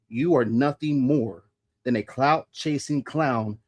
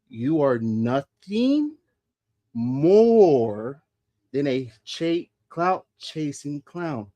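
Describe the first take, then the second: First: The sentence is spoken at a normal pace. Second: The sentence is spoken at a slow pace.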